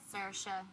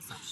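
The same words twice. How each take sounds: First: The name is said with an Irish pronunciation. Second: The name is said with a French pronunciation. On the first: This is how it is said at home. "in Ireland, we would say" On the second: This is an acceptable version for French speakers. "but you guys can say"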